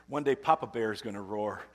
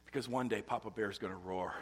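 First: Louder, rising proclamation; preacher building to a climax. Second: Said in the usual way. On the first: Real, not acted. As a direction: declare it with swelling force.

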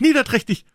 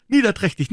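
First: Niederträchtig even higher and louder, falling; louder spiteful cry. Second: High, loud niederträchtig, falling; spiteful cry. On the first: Becky repeats niederträchtig at Tom, even higher. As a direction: top the first niederträchtig with a shriller cry. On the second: Becky hurls niederträchtig at Tom, high loud cry. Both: A narrator's reading. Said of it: "stampfte sie mit dem kleinen Fuße auf und rief".

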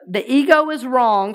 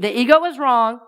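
First: The ego is wrong, firm and clear. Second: The ego is wrong again, firm; call and response. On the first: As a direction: lead the room in it. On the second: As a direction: model it for them to repeat. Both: Shown as a demonstration. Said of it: "Say this with me".

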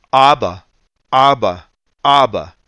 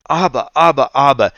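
First: A preacher imitating a little boy calling his daddy, a bit louder; child crying out. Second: Higher, louder imitation of a little boy calling for his father; child crying out. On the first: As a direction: call out to daddy like a small boy on a plane. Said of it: "he cried out, literally". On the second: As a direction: wail it like a restless toddler on a long flight. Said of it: "like that".

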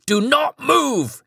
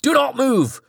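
First: High, slow screamed command; screamed order, drawn out. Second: High, hammed-up screamed command; screamed order. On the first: Acted. Petrified bodyguard screams at Charlie again, slow high scream. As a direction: stretch the scream out, terrified. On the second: Petrified bodyguard screams at the possessed Charlie, high screaming order. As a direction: scream at them to freeze. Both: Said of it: "he screamed".

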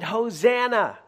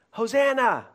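First: High, loud cry of Hosanna; crowd shout. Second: Hosanna even higher and loud; crowd shout again. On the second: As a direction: lift the second Hosanna higher. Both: Retold or imitated. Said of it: "they shouted".

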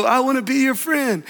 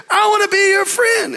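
First: Echo. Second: Put-on boy calling into cave. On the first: Retold or imitated. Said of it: "came back in echo". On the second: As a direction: call out eagerly into the cave. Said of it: "And the little boy said".

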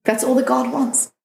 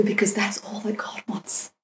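First: "That's all that God wants" said aloud, pitched high and insistent; emphatic repeat. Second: Breathy whispered aside. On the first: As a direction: drive the line home. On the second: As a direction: whisper it like a secret truth. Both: Retold or imitated. Mentor repeats the line twice.

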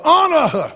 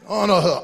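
First: Higher, louder, honor her hammered; loud preaching shout. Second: Said in the usual way. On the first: Acted. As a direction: drive it home with a shout. Repeated exhortation, second shouted.

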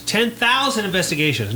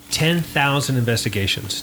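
First: Thousand raised high with a falling tune; stress on thousand. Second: Said in the usual way. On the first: Shown as a demonstration. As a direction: lift and stretch thousand in disbelief. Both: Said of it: "repeated for emphasis".

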